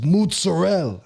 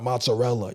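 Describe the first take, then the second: First: "mozzarella" said as "mootz-ah-rell", the final a dropped; mock-Italian "mozzarella" with a ts sound and the last vowel cut off; Italian-style mozzarella. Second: Said in the usual way. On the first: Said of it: "it's not mozzarella". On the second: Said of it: "It's mozzarella".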